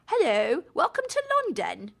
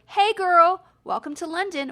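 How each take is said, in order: First: High, prim put-on British hello, rising at the end; a second, posher try at a fake British accent; mock British accent. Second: High, loud, chirpy put-on British greeting from the birds; a playful fake British accent; mock British accent. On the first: Birds welcoming her to London in a prim mock British accent. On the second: Birds greeting the American mum in mock British accent. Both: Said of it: "Don't make fun of my accent".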